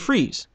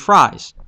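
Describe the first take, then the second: First: The name sounds like the word freeze. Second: The name sounds like the word fries. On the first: It suggests cold or ice. The speaker calls it right. "with a freeze gun, it should be Freeze" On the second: It suggests heat or burning. The speaker calls it wrong. "If he had a flamethrower, it would be Fries"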